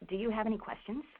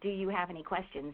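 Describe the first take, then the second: First: It sounds warm, inviting the listener to ask. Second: It sounds discouraging, pushing the listener away.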